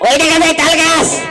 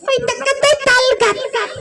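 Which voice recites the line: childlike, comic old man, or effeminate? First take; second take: comic old man; childlike. First: It is recited in a comic older man's voice. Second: It is recited in a small childlike voice. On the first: A comedian is reciting the poem. "আমার কৌতুক শিল্পী মুজিবুর বসের কাছে, ঠিক এইভাবে বলবে" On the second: A small child is reciting the poem. "তার ছোট্ট একটা বাচ্চার কাছে গেল, ঠিক এভাবে বলছে"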